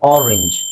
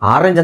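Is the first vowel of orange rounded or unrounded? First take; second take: rounded; unrounded. First: The first vowel is a rounded open o. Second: The first vowel is an open unrounded aa. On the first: This is the correct pronunciation. The speaker calls it right. "Correct pronunciation" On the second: This is the everyday colloquial way of saying it. The speaker calls it wrong. "ಆಡು ಭಾಷೆಯಲ್ಲಿ ಹೇಳ್ತೀವಿ"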